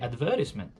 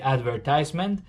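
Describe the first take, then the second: First: It is said with a British accent. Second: It is said with an American accent.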